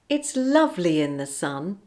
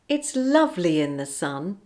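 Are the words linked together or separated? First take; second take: linked; linked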